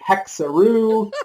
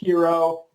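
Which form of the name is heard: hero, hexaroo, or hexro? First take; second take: hexaroo; hero. First: It is said in three syllables, rhyming with kangaroo. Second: It is said in two syllables, like the word hero. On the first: The speaker calls it wrong. "We've had people calling it Hexaroo, like kangaroo" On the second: The speaker calls it right. "but it is pronounced hero"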